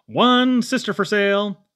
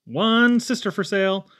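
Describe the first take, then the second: No difference in how they are said.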